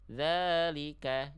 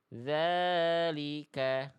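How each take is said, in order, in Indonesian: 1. Kata itu diucapkan sangat cepat dan singkat. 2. Vokal panjangnya ditahan dengan durasi sedang. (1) "Kalau tempo bacaannya cepat banget" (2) "dibacanya dua kali ayun"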